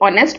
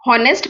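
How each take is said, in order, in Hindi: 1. यह शब्द स्वर ध्वनि से शुरू होता है। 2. यह शब्द h ध्वनि से शुरू होता है। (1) "ऑनेस्ट प्रोनाउंस करते हैं" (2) "इसे हम हॉनेस्ट प्रोनाउंस नहीं करते"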